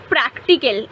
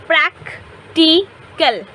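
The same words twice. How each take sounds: First: Said in the usual way. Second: practical said slowly as prac-ti-cal, three separate parts; broken into syllables. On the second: Shown as a demonstration. Teacher breaking the word apart for students, slow syllables. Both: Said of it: "इसको तुम तोड़ो".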